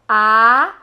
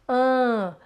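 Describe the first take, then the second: First: The vowel is oral, without nasal resonance. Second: The vowel is nasalized, resonating through the nose. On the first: "olha a diferença" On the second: "quando você quer nasalizar"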